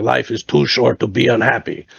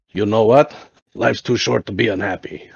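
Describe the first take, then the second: First: Imitated German accent, each word spelled out; lightly voiced old German buddy's accent. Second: Lightly imitated German accent; old German buddy's accent, lightly done; a hint of a German accent. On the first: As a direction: repeat it firmly in a German accent. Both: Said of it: "like, crazy German accent".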